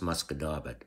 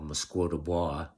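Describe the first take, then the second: First: The name is pronounced the local way. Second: The name is pronounced the outsider way. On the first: The speaker knows the place. The speaker calls it right. "it's actually pronounced" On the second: The speaker is from away. The speaker calls it wrong. "what people from away would call"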